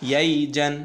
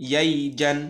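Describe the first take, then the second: No difference in how they are said.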